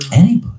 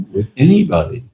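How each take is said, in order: First: Anybody said higher and louder with a rise; anybody repeated with rising emphasis; emphatic repeat. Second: Said in the usual way. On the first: Shown as a demonstration. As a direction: lift and punch anybody.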